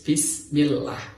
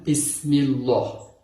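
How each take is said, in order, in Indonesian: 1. Bunyi L pada Allah terdengar tipis dan ringan. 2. Bunyi L pada Allah terdengar tebal dan penuh. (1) "tapi harus bismillah atau tarkik" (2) "Tidak boleh dibaca dengan"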